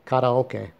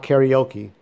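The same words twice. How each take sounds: First: Karaoke said as kah-rah-oh-keh, Japanese style; Japanese pronunciation. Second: Karaoke said the English way, carry-OH-kee; English pronunciation. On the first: Vlogger giving his corrected version, Japanese pronunciation. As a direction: say karaoke with pure Japanese vowels, ending in keh. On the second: Vlogger showing the form he rejects, English pronunciation. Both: Shown as a demonstration. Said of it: "that's the Japanese pronounce".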